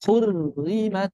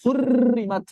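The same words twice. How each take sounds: First: 'Hurrimat' slow, with restrained r; barely vibrate the r in 'Hurrimat'; correct thin ro. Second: 'Hurrimat' higher, with a long rattling r; over-trilled ro. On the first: Teacher gives the right take, controlled ro. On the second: Teacher shows the mistake, over-trilled ro. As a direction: trill many times in 'Hurrimat'. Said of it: "bukan digetarkan banyak-banyak". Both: Shown as a demonstration.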